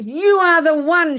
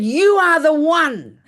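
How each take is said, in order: First: High, loud, slow mock scream; stretched, hammed-up shouted accusation; intense accusation. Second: Loud, high, drawn-out mock yell; hammed-up screamed accusation; intense accusation. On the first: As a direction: act out the neighbor's intense yell. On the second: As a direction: imitate the screaming neighbor, slow and loud. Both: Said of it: "It was so intense".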